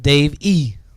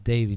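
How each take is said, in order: First: The name is split with a hard separate E. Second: The name flows smoothly as one word. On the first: The speaker calls it wrong. "not Dave E" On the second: The speaker calls it right. "so it's real smooth"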